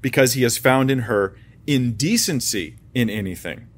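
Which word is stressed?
indecency. The word indecency is stressed.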